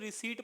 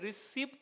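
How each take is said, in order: First: The p sound is silent, no p heard. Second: The p sound is pronounced before the t. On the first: The speaker calls it right. "बल्कि रिसीट पढ़ना है" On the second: The speaker calls it wrong. "पी जो होता है वो silent होता है, तो इसे रिसिप्ट नहीं पढ़ना है"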